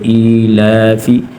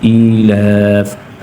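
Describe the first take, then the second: First: The word ends with a short i vowel. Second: The word ends on a bare f consonant.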